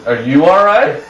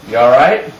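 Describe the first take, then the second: First: Higher, rising echo of the question; imitated cheeky comeback; cocky retort. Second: Said in the usual way. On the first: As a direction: turn the question back on him. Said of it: "You cocky little". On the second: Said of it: "my dad goes".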